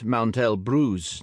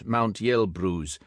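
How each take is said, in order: First: Elbruz begins with a plain 'e' sound. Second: Elbruz begins with a 'ye' sound. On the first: The speaker calls it right. "but Mount Elbruz" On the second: The speaker calls it wrong. "not Mount Yelbruz"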